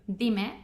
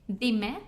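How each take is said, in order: Both takes have the same delivery.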